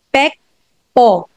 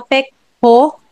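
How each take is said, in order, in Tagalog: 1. Walang parang h na paglabas ang ikalawang katinig. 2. May parang h na paglabas ang ikalawang katinig. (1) "Wala yung parang ho, yung po" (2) "Hindi siya pekpo"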